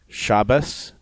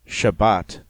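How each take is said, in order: First: The last consonant is an s sound. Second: The last consonant is a t sound.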